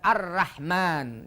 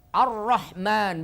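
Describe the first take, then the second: First: The r is pronounced light and thin. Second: The r is pronounced heavy and full. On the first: The speaker calls it wrong. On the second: The speaker calls it right.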